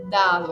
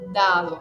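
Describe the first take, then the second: First: It is said with an Italian pronunciation, falling. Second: The same.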